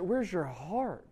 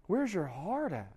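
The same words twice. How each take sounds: First: Slow, searching question; pleading preacher, slow; slow heartfelt question. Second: Drawn-out echo of the question; slower repeat. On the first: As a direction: let it sink in, slowly. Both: Real, not acted. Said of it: "preacher asks the crowd".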